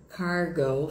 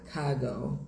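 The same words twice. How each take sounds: First: Slow cargo with a strong R; American English pronunciation; forceful American cargo. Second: Slow cargo as kah-go, R dropped; British English pronunciation; soft British cargo. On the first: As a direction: push the R in cargo. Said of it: "essa força". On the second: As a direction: lighten the R in cargo. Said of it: "mais leve". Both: Shown as a demonstration.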